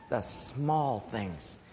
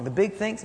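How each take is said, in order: First: Low, soft and very slow; hushed emphasis. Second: Higher, brisker dismissive delivery; dismissive mention. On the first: Preacher naming what keeps marriage strong, hushed emphasis. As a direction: savour each word quietly, drawn out. Contrasts small with big things. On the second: Preacher rejecting big things in marriage, dismissive. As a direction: toss it up as a rejected idea. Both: Acted.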